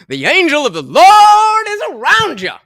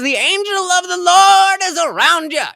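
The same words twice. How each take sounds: First: It is read in a put-on preacher voice. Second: It is read in a plain, ordinary voice.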